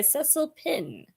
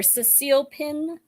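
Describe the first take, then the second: First: "Cecil Pin" with first-syllable stress, SESS-il; first pronunciation. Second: "Cecile Pin" with second-syllable stress, seh-SEEL; alternative pronunciation. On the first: Booktuber introducing the next book's author, "Cecil Pin" as SESS-il. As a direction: say "Cecil Pin" with a short, unstressed second syllable. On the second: Booktuber offering the other way, "Cecile Pin" as seh-SEEL. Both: Shown as a demonstration. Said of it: "never been sure how to pronounce".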